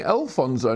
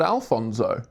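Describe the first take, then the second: First: Alfonso opened as "El-fonzo"; Alfonso, first syllable like the letter L; corrected pronunciation. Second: Alfonso opened with "Al", as in Alan; Alfonso, open "Al" first syllable; contrasted pronunciation. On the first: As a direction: stress an "El" start on Alfonso. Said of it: "Al and L sound the same". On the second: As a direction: say Alfonso with an A start. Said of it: "not Alfonso". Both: Shown as a demonstration.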